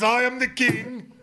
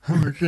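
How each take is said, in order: First: The voice sounds proud and triumphant. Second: The voice sounds pained, close to tears. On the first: He is boasting of his power. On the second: He is hurt and defeated.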